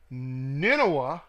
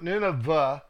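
First: The middle consonant is not a 'v' sound. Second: The middle consonant is a 'v' sound. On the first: The speaker calls it right. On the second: The speaker calls it wrong.

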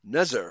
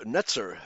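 First: The middle consonant is a plain z sound. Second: The middle consonant is a ts sound. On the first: The speaker calls it wrong. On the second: The speaker calls it right.

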